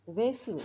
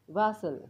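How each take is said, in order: First: Vessel with a short e; first vessel, e vowel. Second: Vessel with an open a; second vessel, a vowel. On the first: (vessel, ए उच्चार) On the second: (vessel, ॲ उच्चार) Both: Shown as a demonstration. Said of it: "एचा आणि ईचा उच्चार वेगवेगळा".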